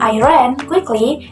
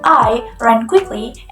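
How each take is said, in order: First: The word ran is stressed. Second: The word I is stressed. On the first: It highlights what action was done. "It emphasizes what thing is being done" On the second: It highlights who did the running. "It emphasizes who is doing the running"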